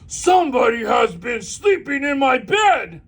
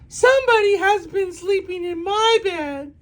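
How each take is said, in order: First: Papa Bear's voice is big and booming. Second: Mama Bear's voice is medium and grumbling.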